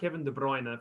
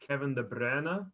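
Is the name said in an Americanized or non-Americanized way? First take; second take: Americanized; non-Americanized. First: The surname is pronounced the common American way. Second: The surname is pronounced the non-American way. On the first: The speaker calls it wrong. "It's not Kevin De Bruyne for all you Americans out there" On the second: The speaker calls it right. "It's Kevin De Bruyne"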